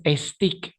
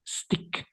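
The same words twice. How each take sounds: First: "stick" wrongly said as "estik"; added e sound. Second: "Stick" begun on pure hissed s; no leading vowel. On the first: Teacher showing learners the mistake, "stick" as "estik". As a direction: put a Spanish e before "stick": "es-TIK". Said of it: "quitemos ese sonido vocálico de la E". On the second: Teacher correcting the added e, "Stick" with vowel-less onset. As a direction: teeth together, blow air straight into "Stick". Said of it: "Juntamos nuestras dentaduras y botamos el aire". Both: Shown as a demonstration.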